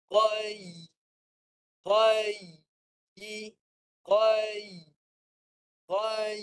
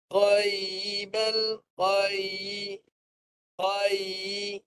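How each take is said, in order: First: Qai with the middle of the tongue raised so the ya sounds; correct dead ya. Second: Qaibal with the dead ya swallowed, barely heard; wrong recitation. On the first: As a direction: Qai said with a clear audible ya glide. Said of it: "bunyi dia macam ni". (sebutan betul, tengah lidah naik) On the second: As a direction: Qaibal said with no raised tongue, ya lost. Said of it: "Ramai yang baca begini". (sebutan salah, ya mati tak kedengaran) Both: Shown as a demonstration.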